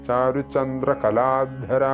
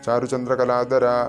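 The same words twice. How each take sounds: First: The dh sound is breathy, pushed from the throat. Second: The dh sound is said plain, without breath. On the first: The speaker calls it right. "ധ തൊണ്ട കൊണ്ട് ഉച്ചരിക്കണം" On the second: The speaker calls it wrong. "വെറും ധര എന്ന് ചൊല്ലിപ്പോകരുത്. ചാരുചന്ദ്രകലാധര അങ്ങനെ ചൊല്ലരുത്"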